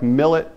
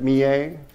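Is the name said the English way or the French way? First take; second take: English; French. First: It is said like the English word millet. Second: It is said with a French pronunciation. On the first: The speaker calls it wrong. "It looks like millet" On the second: The speaker calls it right. "the French pronounce it Millet"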